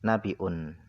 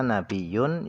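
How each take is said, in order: First: It is said with a glottal stop. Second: It is said with a doubled y sound. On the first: "bil hamzi dengan hamzah" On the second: "dengan nabiyun dengan bitasydidil ya"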